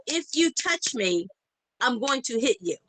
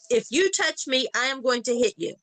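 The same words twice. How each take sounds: First: Flat-out warning. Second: Firm retold threat, "I am" spelled out; flat-out emphatic warning. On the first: Retold or imitated. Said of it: "I told her flat out". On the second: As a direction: repeat the warning with a full, separate "I am". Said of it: "Flat out".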